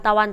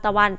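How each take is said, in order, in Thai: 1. พยางค์แรกลดเป็นสระเสียงสั้น 2. พยางค์แรกลดเป็นสระเสียงสั้น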